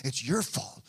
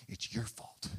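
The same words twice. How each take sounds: First: Said in the usual way. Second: A hissed whisper of accusation; whispered blame. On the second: Retold or imitated. David's men blaming him, whispered accusation. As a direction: breathe the blame out under your voice.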